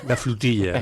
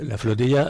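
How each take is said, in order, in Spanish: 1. La primera vocal suena como una u catalana. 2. La primera vocal es una o española normal.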